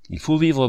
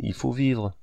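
First: Il faut vivre, high and loud, vivre falling hard; urgent stress on vivre; emphatic. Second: Said in the usual way. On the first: A narrator's reading. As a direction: insist on vivre, pitched up and louder. Insists she must live.

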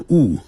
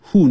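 First: WHO as "oo", the h dropped; who without H. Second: WHO as "hoo", clear h. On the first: Teacher voices Northeasterners teasing, "who" as oo. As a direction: say "who" as a bare "oo". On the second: Teacher voices Northeasterners teasing, "who" with its h. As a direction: keep the h in "who". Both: Shown as a demonstration. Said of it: "不把who念成who".

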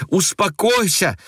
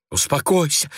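First: Much higher, slower pleading cry; frightened girl crying out to her aunt. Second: Higher, hushed alarmed plea; frightened girl hushing her aunt. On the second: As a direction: beg her to calm down. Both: A narrator's reading. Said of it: "воскликнула ... испуганная Ася".

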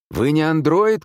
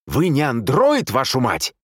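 First: Loud, high-pitched call; shout. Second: Loud, high, slower angry yell; exasperated shout. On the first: Man shouting to the wounded nurse, loud. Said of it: "крикнул он ей". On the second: Man losing patience with the nurse, exasperated shout. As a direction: lose patience and curse it out loudly. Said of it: "не выдержал мистер Одли". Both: A narrator's reading.

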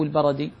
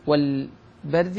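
First: البرد said "al-barad", with an A after the R; البرد with short A on both B and R; barad, two vowels. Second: البرد said "al-bard", R straight into D; البرد with a silent R, no vowel before the D; bard, no middle vowel. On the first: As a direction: open البرد into "ba-ra-di". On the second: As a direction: say البرد as one closed syllable, "bard". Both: Shown as a demonstration. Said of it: "أو البرد".

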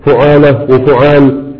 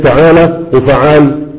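First: فعالة وفعال said slowly with u on the first letter; slow, rounded u on the first letter of فعالة and فعال; fu'ala and fu'al. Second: فعالة وفعال said slowly with i on the first letter; slow, short i on the first letter of فعالة and فعال; fi'ala and fi'al. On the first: Teacher to students, فعالة وفعال said slowly with u on the first letter. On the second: Teacher to students, فعالة وفعال said slowly with i on the first letter. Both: Shown as a demonstration. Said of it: "ارجع بقى قول".

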